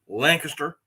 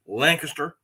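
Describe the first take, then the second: First: The name is said the way locals say it. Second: The same.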